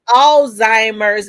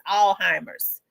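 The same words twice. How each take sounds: First: The z sound in the middle is pronounced. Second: The z sound in the middle is left silent. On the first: Many people say it this way. "some people say it's Alzheimer's" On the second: A nurse says it this way. "as if the Z is is silent"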